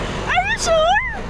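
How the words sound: It is said in a happy tone. "Masaya mo na"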